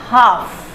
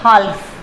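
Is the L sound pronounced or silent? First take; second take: silent; pronounced. First: The L sound is silent. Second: The L sound is pronounced. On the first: The speaker calls it right. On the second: The speaker calls it wrong.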